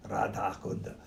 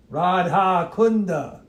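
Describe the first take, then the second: First: Low, soft mock Russian accent; joking Russian voice, pitched down. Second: High, loud, drawn-out RADHA KUNDA; emphatic recitation. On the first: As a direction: drop into a playful Russian accent. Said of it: "That's my Russian voice". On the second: Shown as a demonstration. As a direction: proclaim Radha Kunda slowly and loudly. Recites name, then repeats it differently.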